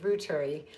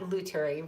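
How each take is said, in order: First: The name begins with an R sound. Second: The name begins with an L sound. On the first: The speaker calls it right. "Not Luturi, Ruturi" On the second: The speaker calls it wrong. "I was pronouncing it wrong"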